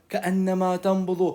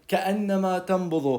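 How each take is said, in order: The two takes are said the same way.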